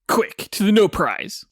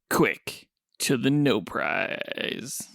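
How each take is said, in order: First: It is said in a plain, normal voice. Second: It is said in a sultry, seductive voice.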